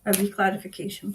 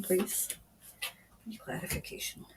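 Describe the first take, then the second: First: Said in the usual way. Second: Whispered to the unseen spirit. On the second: Real, not acted. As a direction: drop to an unvoiced whisper, as if asking privately. Medium asking spirit for clarification.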